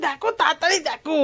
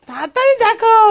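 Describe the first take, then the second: First: Said in the usual way. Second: তাড়াতাড়ি called out higher and louder; excited urging. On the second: Real, not acted. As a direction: hurry them on with joy. Urging child to see gifts. (উত্তেজিত হয়ে জোরে "তাড়াতাড়ি দেখো")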